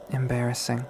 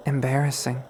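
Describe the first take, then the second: No difference in how they are said.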